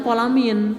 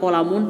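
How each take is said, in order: First: The word ends in the vowel i plus n. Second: The word ends in the vowel u plus n. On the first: The speaker calls it right. "Dibacanya kolamin" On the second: The speaker calls it wrong. "tidak kolamun"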